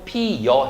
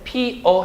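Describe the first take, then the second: First: The second syllable starts with a 'y' glide. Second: The second syllable is a plain 'eo' vowel. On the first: "피여 해도 된다는 얘기예요" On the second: "피어 해도 되고"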